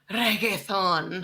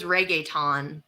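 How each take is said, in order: First: "reggaeton" slowly in a showy Spanish accent; overdone Spanish pronunciation of "reggaeton". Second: Said in the usual way. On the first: Shown as a demonstration. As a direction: say "reggaeton" with a rolled Spanish r, drawn out. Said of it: "I said a word in an accent".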